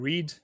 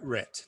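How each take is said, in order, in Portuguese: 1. A vogal é longa, como 'reed'. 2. A vogal é curta, como 'red'. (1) "No presente, ele é read" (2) "No passado, ele fica igual, escreve igual, só muda a pronúncia, fica red"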